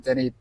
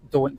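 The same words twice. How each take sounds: First: "dinny" said as the Scots word; "dinny" with a Scottish vowel; Scots form. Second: "don't" said as the plain English word; "don't" in ordinary English pronunciation; standard English form. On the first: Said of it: "but not". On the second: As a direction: say "don't", not the Scots form. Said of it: "You might say, like". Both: Shown as a demonstration.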